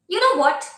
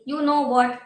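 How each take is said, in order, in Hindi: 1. इसे जीवंत और भावपूर्ण लहजे में बोला गया है। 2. इसे सपाट तरीके से, बिना भाव के पढ़ा गया है। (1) "You have to bring the expression" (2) "You guys are reading it like simply"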